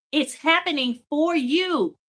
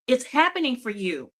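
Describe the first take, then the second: First: Slow, with "for" lifted and stretched; "for" drawn out as the key word; stress on FOR. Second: Said in the usual way. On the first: Real, not acted. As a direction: lean hard on the word "for". Repeats promise, first stressing FOR.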